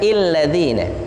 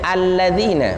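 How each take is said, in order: First: The word begins with an i vowel. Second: The word begins with an a vowel. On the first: The speaker calls it wrong. "bukan illadzina" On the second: The speaker calls it right. "bacanya alladzina"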